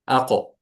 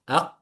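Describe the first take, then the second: First: The final q bounces with a short echo. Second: The final q is held without any echo. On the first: "this is uh, when it's uh, pronounced with قلقلة" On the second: "try to pronounce it without قلقلة"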